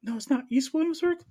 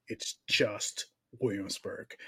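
First: High, loud indignant squeal; mock outrage, pitched way up; mock indignant protest. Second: Slow, low, patient correction; a touch of the wife's patient voice; imitating wife. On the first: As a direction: whine it like a wounded local. Mocking his own protest. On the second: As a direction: calmly set him straight like his wife. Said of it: "Like, it's, baby".

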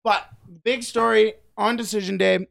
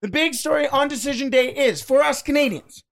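First: Talking right after swallowing a fly; words caught by a fly in the throat; just swallowed a fly. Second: Higher, pushing past a swallowed fly; just swallowed a fly. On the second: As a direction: restart after swallowing a fly. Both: Real, not acted. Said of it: "I think I just swallowed a fly".

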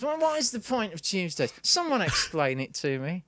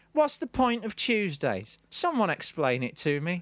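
First: Mock stand-up delivery, starting high-pitched; open mic comic. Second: Mock-hilarious post. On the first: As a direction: parody an amateur comedian posing a question. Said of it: "sort of open mic night". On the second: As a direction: read out the post as a feeble joke. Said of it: "had hilariously posted".

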